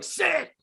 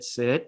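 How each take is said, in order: First: Imitated frustrated command, pitched high; mock the upset handler ordering his dog. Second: Low, calm retold sit command; calm request. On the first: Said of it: "he is shouting at his dog because he's upset". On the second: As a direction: ask the dog kindly, pitched low. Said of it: "Now ask your dog nicely for a sit".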